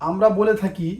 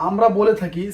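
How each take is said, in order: Both takes have the same delivery.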